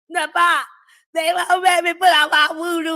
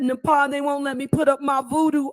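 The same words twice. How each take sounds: First: Spoken in a put-on voice imitating someone. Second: Spoken in the speaker's own ordinary voice.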